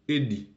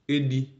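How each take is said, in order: First: The pitch falls at the end of the verb. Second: The pitch rises at the end of the verb. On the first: The action is completed in the past. "Au passé composé, l'intonation du verbe d'action, elle descend" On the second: The action is happening now. "au présent, l'intonation du verbe d'action, elle monte"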